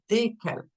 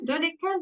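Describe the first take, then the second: First: It is said as one contracted word. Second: It is said as two separate words. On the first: The speaker calls it right. "We say desquels" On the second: The speaker calls it wrong. "No, we don't say that"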